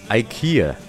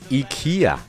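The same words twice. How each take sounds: First: The first syllable sounds like 'eye'. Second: The first syllable does not sound like 'eye'. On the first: The speaker calls it right. "真正的读音应该是IKEA。那前面的字母I 其实就是跟iPhone 的I 是一样的发音的" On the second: The speaker calls it wrong. "很多人会把宜家的英文读成IKEA"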